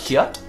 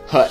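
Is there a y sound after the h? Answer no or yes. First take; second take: yes; no. First: A y sound follows the h at the start. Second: The word starts with a plain h sound. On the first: "not hyut" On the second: "The Y is silent"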